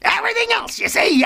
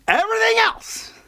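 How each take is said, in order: First: Very high, silly voice; mock emphatic squeal. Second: Said in the usual way. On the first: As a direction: repeat it in a comic falsetto.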